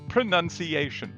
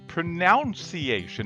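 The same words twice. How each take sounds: First: The second syllable sounds like 'none'. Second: The second syllable sounds like 'noun'. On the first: The speaker calls it right. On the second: The speaker calls it wrong.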